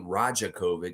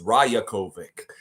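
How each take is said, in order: First: The middle consonant is a J sound. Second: The middle consonant is a Y sound. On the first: The speaker calls it wrong. "So why would it be" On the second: The speaker calls it right. "the J is always pronounced with a Y"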